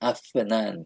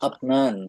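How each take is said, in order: First: The middle consonant is an f sound. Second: The middle consonant is a p sound. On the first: The speaker calls it right. "ওরা বলে" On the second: The speaker calls it wrong. "আমরা বলি যদি আপ, আপনান"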